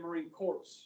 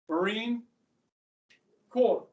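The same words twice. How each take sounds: First: The P and S in the last word are pronounced. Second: The P and S in the last word are silent. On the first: The speaker calls it wrong. "You don't say" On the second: The speaker calls it right. "P is silent. So is the S"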